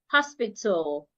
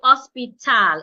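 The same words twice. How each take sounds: First: The last syllable has a weak, reduced vowel. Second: The last syllable has a full clear vowel. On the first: The speaker calls it right. "so it becomes t, l, tul" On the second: The speaker calls it wrong. "I would not say hospital. It wouldn't be t, al, tal"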